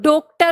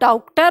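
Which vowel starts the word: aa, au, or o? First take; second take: o; au. First: The first vowel is a closed o. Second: The first vowel is an au sound. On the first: "ओ की मात्रा लगा के देखी" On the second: "औ की मात्रा लगाकर देखी, तो ये और भी बिगड़ गया"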